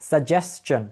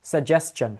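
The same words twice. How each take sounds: The two takes are said the same way.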